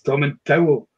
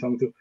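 First: The name's ending sounds like the word towel. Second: The name's ending does not sound like towel. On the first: The speaker calls it right. "I grab a towel and wrap myself in it" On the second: The speaker calls it wrong. "You'll never pronounce it wrong again"

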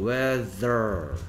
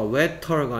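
First: The middle consonant is a th sound. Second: The middle consonant is a plain t sound. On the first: The speaker calls it right. "얘는 혀를 물어야 되니까" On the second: The speaker calls it wrong. "웨터가 아니고"

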